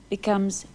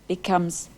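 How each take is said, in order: The two takes are said the same way.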